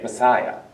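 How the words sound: It is pronounced the English way. "or as we like to say it"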